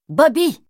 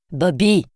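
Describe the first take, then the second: First: Raised call of "Bobby!" after being ignored; shouted name. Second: Said in the usual way. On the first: A narrator's reading. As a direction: yell it up the stairs sharply. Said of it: "cria-t-elle".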